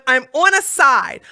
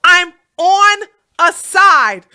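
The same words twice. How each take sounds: First: Said in the usual way. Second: "I'm on a side" slow, every word hammered louder; slow emphatic stress. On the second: Real, not acted. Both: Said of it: "You understand this?".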